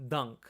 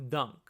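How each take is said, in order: Both takes have the same delivery.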